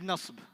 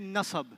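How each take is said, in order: First: No vowel is sounded between the s and b. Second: A vowel is sounded between the s and b. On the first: The speaker calls it right. "Arabic is nasb" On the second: The speaker calls it wrong. "We don't say nasab"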